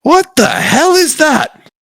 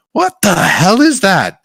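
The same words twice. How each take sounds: First: High, slow alarmed shout; shocked guard crying out; startled guards. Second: Slow alarmed cry; surprised guard; startled guards. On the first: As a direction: recoil at the strange beast. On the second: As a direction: guards spin round in shock. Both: Acted. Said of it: "they're like".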